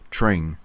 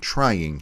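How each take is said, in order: First: The word is squeezed into one syllable. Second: The word is said with two syllables. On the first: "it's a one-syllable word" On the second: "instead of a two-syllable word"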